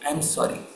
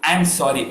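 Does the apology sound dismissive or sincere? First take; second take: sincere; dismissive. First: It is said sincerely, with real feeling. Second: It is said dismissively, with an attitude. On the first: The apology is truly felt. The speaker calls it right. "the feelings was more when I say said like this" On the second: The apology is not really meant. The speaker calls it wrong. "I'm sorry with an attitude like this"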